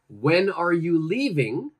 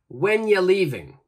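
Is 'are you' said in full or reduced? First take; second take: full; reduced. First: Every word is said fully and separately. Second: 'Are you' is joined into one short sound.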